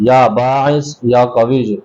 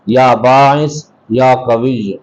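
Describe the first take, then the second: Both takes have the same delivery.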